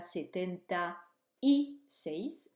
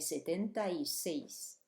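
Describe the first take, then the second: First: The words are said separately without linking. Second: The words are linked together smoothly. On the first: The speaker calls it wrong. "on ne dit pas setenta y seis" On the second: The speaker calls it right. "on fait la liaison"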